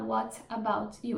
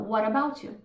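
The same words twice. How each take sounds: First: Each word is said separately with a clear T. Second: The T is dropped and the words run together. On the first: The speaker calls it wrong. "eles não vão falar" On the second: The speaker calls it right. "eles podem cortar o T"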